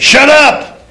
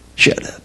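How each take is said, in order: First: It is said in an angry, hostile way. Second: It is said in a relaxed, friendly way.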